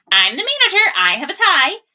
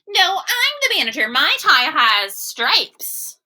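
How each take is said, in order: First: Much higher, louder little mouse voice; squeaky mouse manager. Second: Much higher, quick indignant squeak on "No, I'm the manager"; squeaky rival mouse. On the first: Mouse insisting to Bruce he is the manager, high and proud. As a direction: puff up like a tiny boss. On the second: Second mouse arguing over who is manager, high and huffy. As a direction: outdo the other mouse. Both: Acted.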